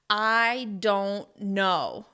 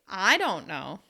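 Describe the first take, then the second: First: Every word is stressed, with pauses between. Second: The word I carries the main stress. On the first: The speaker is annoyed at being asked. "stress each and every word individually and pause between the words" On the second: Someone else might know. "you can stress the word I"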